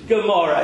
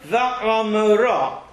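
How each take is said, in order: First: The word begins with a hard G sound. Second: The word begins with a guttural throat sound. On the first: The speaker calls it wrong. "It's not Gomorrah" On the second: The speaker calls it right. "It's a guttural sound. It comes from the back of the throat"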